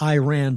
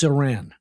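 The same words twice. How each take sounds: First: It sounds like the phrase 'I ran'. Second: It does not sound like 'I ran'. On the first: The speaker calls it wrong. "Iran is something you say when a bad guy's chasing you down the street" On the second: The speaker calls it right. "It's Iran"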